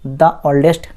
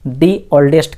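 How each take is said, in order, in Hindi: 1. 'The' में छोटी 'uh' स्वर ध्वनि होती है। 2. 'The' में लंबी 'ee' स्वर ध्वनि होती है। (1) "नहीं कहा" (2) "इसीलिए द को हमने दी कहा"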